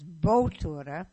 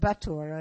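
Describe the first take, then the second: First: The name is pronounced in a careful way. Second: The name is pronounced in a sloppy way. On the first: The speaker calls it right. "and it's Bottura" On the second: The speaker calls it wrong. "My sloppy pronunciation said Bottura"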